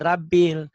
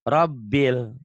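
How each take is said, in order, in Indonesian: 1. Vokal pertama berbunyi 'a' biasa. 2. Vokal pertama berbunyi 'o' tebal. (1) "Ini bukan rabil" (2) "ra-nya ganti O tuh"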